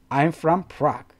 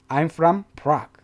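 No difference in how they are said.

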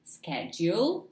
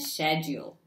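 First: It is said the American way. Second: It is said the British way. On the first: "This one is known to be American" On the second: "and this one British"

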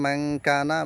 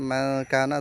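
The two takes are said the same way.

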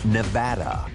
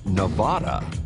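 First: Nevada is said the way state residents say it. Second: Nevada is said the way eastern Americans say it. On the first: This is how people from the state say it. The speaker calls it right. "the correct pronunciation, according to state residents, is Nevada" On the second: The speaker is probably from the eastern half of the country. The speaker calls it wrong. "you're probably from the eastern half of the country"

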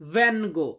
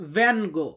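The two takes are said the same way.

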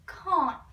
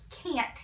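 First: It is said with a British accent. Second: It is said with an American accent. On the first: "He says it can't" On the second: "he doesn't say it like can't"

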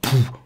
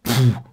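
No difference in how they are said.

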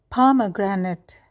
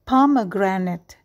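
No difference in how they are said.

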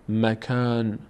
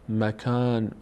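No difference in how they are said.

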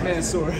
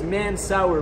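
First: The second syllable sounds like 'sore'. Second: The second syllable sounds like 'sour'. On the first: The speaker calls it right. "It's just man sore" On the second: The speaker calls it wrong. "they think it says man sour, but it's not man sour"

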